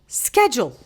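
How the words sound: The word is said the American way. "she adopted this American accent, and she would pronounce this word as schedule"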